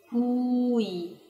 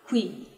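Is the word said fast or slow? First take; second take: slow; fast. First: The word is said slowly, vowels drawn apart. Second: The word is said quickly as one syllable. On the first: "tenta pronunciar devagarinho" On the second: "Agora rápido"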